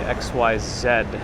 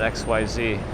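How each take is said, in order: First: The last letter is pronounced ending in a d sound. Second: The last letter is pronounced ending in an ee sound. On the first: This is how Australians say it. "Ozzy say X Y Z" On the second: This is not how Australians say it. "not X Y Z"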